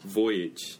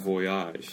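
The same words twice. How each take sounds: First: The word is pronounced the English way. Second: The word is pronounced the French way. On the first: "영어 voyage 이라는 단어도 있죠. 근데 그거는 voyage 이라고 해요" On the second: "우리 불어식으로 발음을 해요"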